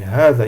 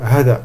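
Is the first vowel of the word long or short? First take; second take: long; short. First: The first vowel is long. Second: The first vowel is short. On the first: The speaker calls it right. "On dit hada. Il y a un alif qui n'est pas écrit" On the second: The speaker calls it wrong. "On ne dit pas hada"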